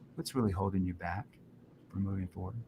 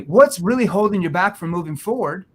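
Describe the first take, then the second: First: The voice sounds soft and concerned. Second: The voice sounds casual, without concern. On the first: The listener feels cared about and opens up. The speaker calls it right. "and they just open up" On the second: The listener deflects and asks for time. The speaker calls it wrong. "In that tone"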